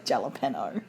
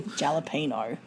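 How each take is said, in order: First: Low, soft Jalapeno with English J and "penno"; mispronunciation. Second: Low, soft Jalapeno with English J and "peeno"; mispronunciation. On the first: Co-host muttering variants, Jalapeno as "jalla-penno". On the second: Co-host muttering variants, Jalapeno as "jalla-peeno". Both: Shown as a demonstration. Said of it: "trying out different ways of pronouncing".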